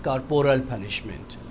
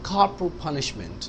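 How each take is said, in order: First: Every syllable is fully pronounced as spelled. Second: The middle vowel is dropped, giving fewer syllables. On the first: The speaker calls it wrong. "not corporal punishment" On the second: The speaker calls it right. "आप कहेंगे corporal punishment"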